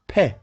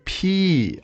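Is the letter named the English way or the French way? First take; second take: French; English. First: The letter is named as in French. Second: The letter is named as in English. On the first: The speaker calls it right. "It is pronounced P" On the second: The speaker calls it wrong. "don't say P"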